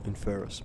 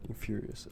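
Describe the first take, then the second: First: Infurious said as in-FUR-us, middle syllable dropped; Infurious slurred to three syllables; mispronounced. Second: Infurious said in-FYOOR-ee-us, all four syllables; Infurious said carefully in full; corrected name. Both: Real, not acted. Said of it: "my bad".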